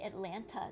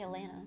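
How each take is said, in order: First: The middle t is clearly pronounced. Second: The middle t is dropped. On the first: This is how outsiders say it. "don't say Atlanta" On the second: This is how locals say it. "they say Atlanta"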